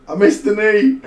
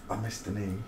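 First: I missed the knee yelled high and loud; loud high exclaimed I missed the knee; frustrated shout. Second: I missed the knee said softly under the breath; quiet muttered I missed the knee; muttered aside. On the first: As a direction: bellow it in frustration. Exclaims same words. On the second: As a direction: mumble it to yourself. Muttered to self. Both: Real, not acted.

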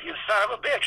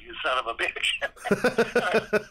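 First: Pitched well up, ending on a rise; high delighted curse. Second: Each word stretched out, a little higher; slow drawn-out curse. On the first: Walt repeating the curse to Rolly, high and delighted. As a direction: throw it up high, half admiring. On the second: Walt at Rolly's desk at dawn, slow drawn-out curse. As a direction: let the curse crawl out, grudging. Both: Retold or imitated.

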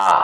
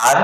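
First: "আ" as a long ah with no r; British-style non-rhotic "আ". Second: "আর" with the final r sounded; American-style rhotic "আর". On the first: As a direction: drop the r, leave an open "আ". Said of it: "ব্রিটিশরা বলে আ". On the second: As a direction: pronounce the r at the end of "আর". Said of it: "আমেরিকানরা বলে". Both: Shown as a demonstration.

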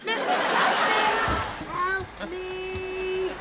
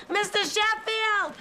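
First: Frantic call for help. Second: High, slow, desperate call for help. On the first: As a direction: call out even harder, panicking. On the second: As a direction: cry out his name from the closet. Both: Acted. Stuck in the closet, calling for help.

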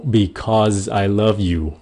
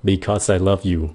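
First: Slow "Because I love you" with "Because" ending in a buzzed z. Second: "Because I love you" at everyday speed, "Because" with a voiceless s. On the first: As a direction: draw it out, voicing the Z of "Because". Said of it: "because là âm Z". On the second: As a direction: run it together with a light S in "Because". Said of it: "tốc độ bình thường giao tiếp thì các bạn dùng chữ S". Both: Shown as a demonstration.

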